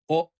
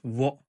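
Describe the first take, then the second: First: It is a plain vowel with no w. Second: It begins with a w sound before the vowel. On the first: The speaker calls it right. "The pronunciation is o" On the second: The speaker calls it wrong. "not wo. We don't say w"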